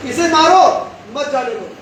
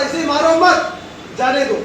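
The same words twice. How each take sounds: First: "इसे मारो" rising and punched, break, then "मत, जाने दो" falling away; pause before मत. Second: "इसे मारो मत" as one phrase, then "जाने दो"; pause after मत. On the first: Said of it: "फर्क है दोनों में?". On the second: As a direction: keep मत tied to "मारो", break, then drop on "जाने दो". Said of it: "ये मत यहाँ था". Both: Shown as a demonstration.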